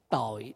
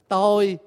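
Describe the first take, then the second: First: The word is said with a low glottal tone. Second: The word is said with a level tone. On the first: It means sin. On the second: It means the self.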